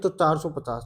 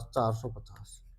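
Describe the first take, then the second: First: Said in the usual way. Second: Slow, soft whisper to himself; whispered repeat. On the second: Real, not acted. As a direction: breathe the number out slowly. Teacher repeats total to himself.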